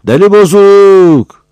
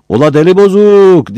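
First: Slow, much higher, very loud jeering call; drawn-out shout. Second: High, loud village jeer across the square; shouted taunt. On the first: Villager taunts Battal again, slow, much higher, very loud. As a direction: stretch out the taunt. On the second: Villager on the roof jeers at Battal, shouting high and loud. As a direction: yell it from the rooftop. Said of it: "diye bağırdı birisi". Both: Acted.

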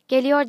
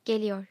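First: Louder, raised call across the room; shouted call. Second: Said in the usual way. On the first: A narrator's reading. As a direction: call it out loudly as the aunt. (yüksek sesle bağırarak) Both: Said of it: "diye bağırdı teyze".

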